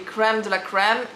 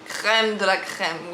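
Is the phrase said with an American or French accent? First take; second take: American; French. First: It is said with an American-style R. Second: It is said with a strong French R. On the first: "in America it's gonna be" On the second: "in French, you know"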